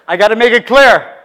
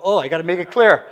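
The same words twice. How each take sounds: First: Louder, higher, driving the point home; emphatic louder repeat. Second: Said in the usual way. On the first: Retold or imitated. Preacher repeating himself to the congregation, louder and emphatic. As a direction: hit it harder the second time.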